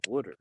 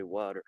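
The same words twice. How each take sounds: First: "water" the East Coast way, WOOD-er; East Coast accent. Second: "water" with an open ah, WAH-ter; standard pronunciation. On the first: Answering people who mock it, East Coast accent. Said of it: "they always shit on my accent". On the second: Denying saying it this way, standard "water". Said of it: "I don't say water". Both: Shown as a demonstration.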